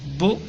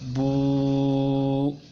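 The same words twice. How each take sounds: First: The vowel is held briefly. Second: The vowel is held for two beats. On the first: "Kalau ini pendek" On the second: "panjang karena ada domah bertemu waw mati"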